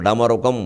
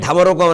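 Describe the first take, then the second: First: The first consonant is plain, without a breath. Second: The first consonant is aspirated, with a breath. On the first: The speaker calls it right. "దానికి ఒత్తు ఉండదు" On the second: The speaker calls it wrong. "ఢమరుకం అనే మాట తప్పు, ఒత్తు పెట్టకూడదు"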